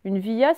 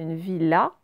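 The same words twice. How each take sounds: First: "villa" misread as vee-ya; "villa" as non-existent vee-ya; wrong ye reading. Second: "villa" said vee-la; "villa" with clear L, no glide; correct L reading. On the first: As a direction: say "villa" with y replacing the L. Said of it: "ça n'existe pas". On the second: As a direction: pronounce the L in "villa". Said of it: "C'est une villa". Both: Shown as a demonstration.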